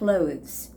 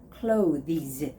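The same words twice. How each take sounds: First: It is one syllable, sounding like close. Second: It has an extra vowel, two syllables. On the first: The speaker calls it right. "you don't necessarily have to make the sound of T H" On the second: The speaker calls it wrong. "many people make mistake by saying clothes"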